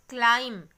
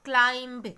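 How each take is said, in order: First: No b sound is heard at the end. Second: A b sound is heard at the end. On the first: The speaker calls it right. "So we are not pronouncing the letter B" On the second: The speaker calls it wrong. "It's not climb"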